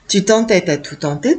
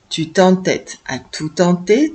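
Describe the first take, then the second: First: The phrase is spoken at a faster pace. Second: The phrase is spoken at a slow pace. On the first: "On essaye un peu plus vite" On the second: "on va prendre notre temps"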